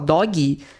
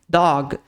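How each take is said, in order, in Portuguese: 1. A palavra termina com um som de vogal acrescentado. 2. A palavra termina de forma seca na consoante. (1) "colocar um som extra no final" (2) "você vai falar ele seco, curto, breve"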